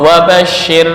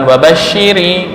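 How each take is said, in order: First: The word ends on the bare 'r' consonant. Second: The word ends with an added 'i' vowel. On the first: The speaker calls it right. "ketika waqaf wabasyir" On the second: The speaker calls it wrong. "bukan wabasyiri, enggak"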